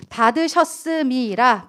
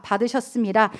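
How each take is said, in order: First: Slow stressed word. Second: Said in the usual way. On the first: Shown as a demonstration. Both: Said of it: "여러분".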